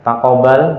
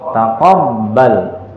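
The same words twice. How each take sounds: First: The b sound is short and single. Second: The b sound is held and doubled. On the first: The speaker calls it wrong. "bukan taqabbal" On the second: The speaker calls it right. "ba ini ada syaddah ... tapi taqabbal"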